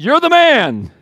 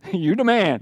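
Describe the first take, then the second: First: "You're the man." shouted high and hard, stressing "man"; stern accusation. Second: Casual "You the man." with a laugh, as easy praise; laid-back slang compliment. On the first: Preacher gives Nathan's real words to David, loud and accusing. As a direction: nail him with "You're the man.". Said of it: "He said". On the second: Preacher mocks the wrong reading of Nathan, casual and laughing. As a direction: toss off "You the man." like a friendly cheer. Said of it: "he didn't say, "You the man". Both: Retold or imitated.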